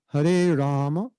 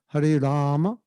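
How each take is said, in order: Both takes have the same delivery.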